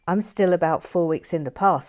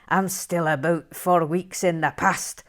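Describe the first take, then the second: First: It is read in the speaker's usual accent. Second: It is read in a put-on Scottish accent.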